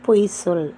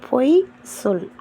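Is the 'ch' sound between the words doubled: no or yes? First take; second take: yes; no. First: The words are joined with a doubled 'ch' sound. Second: The words are said apart with a single 's' sound. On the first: What the person says is a false statement. "நீ பேசுகிற விஷயம் வந்து பொய்யானது" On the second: It is an order telling someone to lie. "அதாவது கட்டளை"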